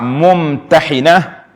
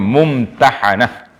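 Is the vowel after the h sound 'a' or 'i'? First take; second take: i; a. First: The vowel after the h is 'i'. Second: The vowel after the h is 'a'. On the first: The surah that does the testing. "dibaca dengan bikasril ha'" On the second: A woman who was tested. "itu dia panggil mumtahanah"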